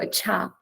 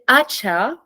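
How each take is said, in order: First: The stress is on the second syllable. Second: The stress is on the first syllable. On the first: "you have the stress on the second syllable. You go acha, like on the second one" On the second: "I would have it on the first syllable"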